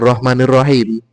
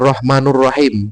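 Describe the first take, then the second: First: The vowel after rahman is i. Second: The vowel after rahman is u. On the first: The speaker calls it wrong. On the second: The speaker calls it right. "ini yang benar"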